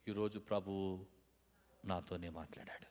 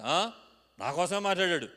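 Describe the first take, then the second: First: Low, soft, reverent admission; quiet, lowered, humbled voice; humble acceptance. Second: Loud, haughty retort; cocky, indignant tone; arrogant. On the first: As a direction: say it gently, taking it to heart. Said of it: "ఆ మాట రెండు రకాలుగా అనొచ్చు". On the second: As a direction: say it with puffed-up pride. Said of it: "పొగరబోత్తనంగా మాట్లాడొచ్చు". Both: Shown as a demonstration.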